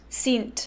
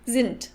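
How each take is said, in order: First: The first S is sharp, Austrian style. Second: The first S is soft, German style.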